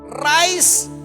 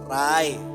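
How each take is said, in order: First: The word ends with a clear s sound. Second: The word ends without any s sound. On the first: The speaker calls it right. "Berkali-kali saya katakan rice" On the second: The speaker calls it wrong. "dia selalu berkata rai ... salah melulu"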